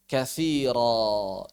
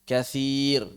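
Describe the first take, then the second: First: The word ends in a long a vowel. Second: The word ends in a bare consonant. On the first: This is how it is read in the Quran. The speaker calls it right. "harus khaira, kathira" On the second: This is acceptable only in ordinary Arabic. The speaker calls it wrong. "masih benar kalau kita membacanya sukun"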